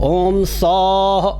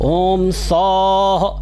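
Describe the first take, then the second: No difference in how they are said.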